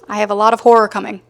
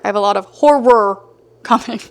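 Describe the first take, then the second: First: The words are run together and loosely pronounced. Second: Each word is clearly and carefully pronounced. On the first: The speaker calls it wrong. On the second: The speaker calls it right.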